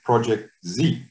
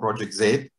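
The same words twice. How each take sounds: First: The letter Z is said the American way. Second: The letter Z is said the South African way. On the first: The speaker calls it wrong. "that's very American" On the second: The speaker calls it right. "because we're South African"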